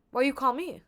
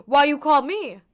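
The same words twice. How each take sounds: First: Said in the usual way. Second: Loud, slow, laughing why you call me; mock accusation. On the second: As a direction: tease the chat playfully. Playful mock accusation to chat.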